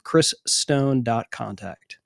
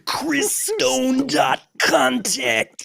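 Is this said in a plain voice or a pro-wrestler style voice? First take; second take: plain; wrestler. First: It is said in an ordinary speaking voice. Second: It is said in a gruff pro-wrestler voice.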